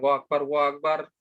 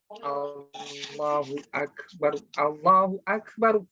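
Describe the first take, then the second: First: The phrase is said quickly and clipped. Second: The phrase is said slowly with long sounds. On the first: The call is done carelessly. The speaker calls it wrong. "nggak boleh sembarangan" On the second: The call is done with care. The speaker calls it right.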